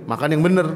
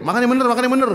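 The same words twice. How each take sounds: First: Said in the usual way. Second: Mock Betawi command, pitched up; bossy Betawi host. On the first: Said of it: "Padahal tadi nyuruhnya apa?". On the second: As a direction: boss the guest into eating right. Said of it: "nyuruhnya pakai".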